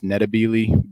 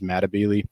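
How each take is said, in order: First: The name begins with an n sound. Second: The name begins with an m sound. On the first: This is the native form of the name. "the native African pronunciation" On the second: This is the English-adapted form of the name. "the kind of anglicized version"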